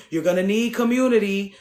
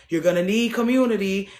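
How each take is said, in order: Both takes have the same delivery.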